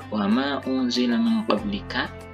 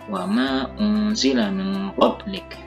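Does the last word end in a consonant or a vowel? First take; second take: vowel; consonant. First: The last word ends with a short vowel. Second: The last word ends on a consonant. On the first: The reading continues without stopping. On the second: The reader stops here.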